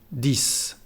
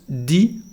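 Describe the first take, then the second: First: It ends with an audible s sound. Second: It ends on the vowel, with no s. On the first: The number stands alone. "es la pronunciación correcta cuando esa, ese número está solo" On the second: A consonant-initial word follows. "no se pronuncia la X, solamente decimos di"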